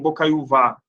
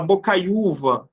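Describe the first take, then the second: First: The stress is not on the second-to-last syllable. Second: The stress is on the second-to-last syllable. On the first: The speaker calls it wrong. "você não fala ... e nem bocaiúvá" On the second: The speaker calls it right. "Você fala bocaiúva"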